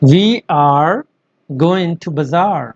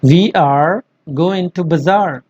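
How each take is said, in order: No difference in how they are said.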